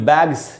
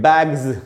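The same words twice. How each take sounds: First: The word ends with a hissing s sound. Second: The word ends with a buzzing z sound. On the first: The speaker calls it wrong. "इसको भी बैग्स नहीं पढ़ना चाहिए" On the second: The speaker calls it right. "उसको पढ़ेंगे बैग्स"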